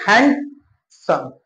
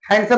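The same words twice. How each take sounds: First: handsome pulled apart slowly as hand, pause, सम; broken into syllables. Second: Said in the usual way. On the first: Shown as a demonstration. Teacher testing if it fits one breath-beat, slowly split in two. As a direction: split handsome into two separate slow beats. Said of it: "एक बार में बोल पा रहे हो". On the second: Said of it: "handsome बोल के देखो".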